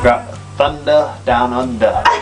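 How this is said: It is said in an Australian accent. "say in the accent"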